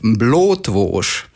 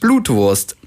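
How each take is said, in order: First: The word is said in Cologne dialect. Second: The word is said in Standard German. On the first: "Das knifflige kölsche Wort" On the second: "Zu Deutsch"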